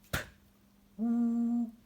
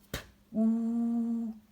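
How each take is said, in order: Both takes have the same delivery.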